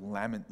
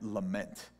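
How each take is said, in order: First: "lament" stressed on the first syllable. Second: "lament" stressed on the second syllable. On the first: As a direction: say "lament" as LAM-ent. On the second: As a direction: say "lament" as luh-MENT. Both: Real, not acted. Corrects own word stress.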